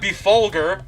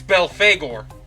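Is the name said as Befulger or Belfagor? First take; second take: Befulger; Belfagor. First: The name is said as Befulger. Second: The name is said as Belfagor. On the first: The speaker calls it wrong. "like I've been saying this whole time" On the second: The speaker calls it right. "Supposedly, it's pronounced Belfagor"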